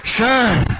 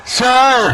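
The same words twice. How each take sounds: First: Sir lifted high. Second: Sir higher and louder. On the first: Teacher asks class to copy, high sir. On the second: Teacher repeats for class, high loud sir. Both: Shown as a demonstration. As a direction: call sir high and urgent. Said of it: "ऐसे बोल के दिखाओ".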